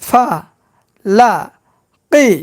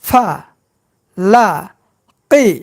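The two takes are said the same way.

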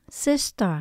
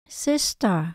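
No difference in how they are said.

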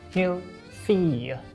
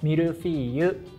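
First: It is said with an attempted French pronunciation. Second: It is said with a Japanese pronunciation. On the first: "French people, please correct my pronunciation" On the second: "In Japanese, we say mille feuille"

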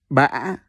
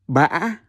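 First: The pitch rises with a break in the voice. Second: The same.

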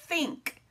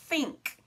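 Both takes have the same delivery.

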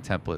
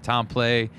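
First: The name is said with an American pronunciation. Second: The name is said with a French pronunciation. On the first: This is how people locally say it. "here in the United States, we all call him Matt Templet" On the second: This is the family's original pronunciation. "his last name is actually pronounced Templet"

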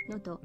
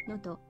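No difference in how they are said.

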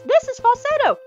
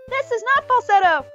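First: It is said in a high falsetto voice. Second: It is said in a normal chest voice.

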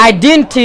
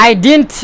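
No difference in how they are said.

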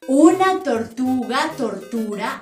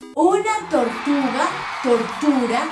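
First: It is spoken at a medium pace. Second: It is spoken at a slow pace.

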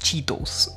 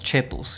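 First: The first vowel is a long English 'ee'. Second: The first vowel is a Spanish 'e' sound. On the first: This is the English name mixed into Spanish speech. The speaker calls it wrong. "You don't say" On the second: This is how Spanish speakers say the name. The speaker calls it right. "you call them Chetos"

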